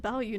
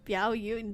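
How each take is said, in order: First: The first syllable has no glide: 'bao'. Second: The first syllable has a 'y' glide: 'biao'. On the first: The speaker calls it right. "his name is Bao Yu" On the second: The speaker calls it wrong. "not Biao Yu. Why did I say it like that?"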